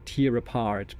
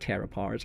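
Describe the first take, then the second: First: Tear is said with the vowel of ear. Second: Tear is said with the vowel of air. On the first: The speaker calls it wrong. "many German speakers do wrong. That they say tear apart" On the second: The speaker calls it right. "but no, it's tear apart"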